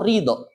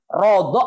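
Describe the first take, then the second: First: The first syllable has an i vowel. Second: The first syllable has an o-like vowel. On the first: "bisa dibaca ri" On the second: "bisa dibaca ro"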